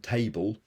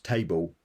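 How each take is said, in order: First: The final L is pronounced as an L. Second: The final L is pronounced as a vowel. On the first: "instead of saying table" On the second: "So that the L becomes a vowel"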